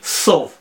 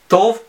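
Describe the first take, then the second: First: The word begins with an s sound. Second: The word begins with a t sound. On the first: "некоторые говорят на ашкеназисе и произносят «с»" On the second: "некоторые говорят по-сефардски и произносят «т»"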